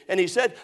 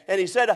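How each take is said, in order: Both takes have the same delivery.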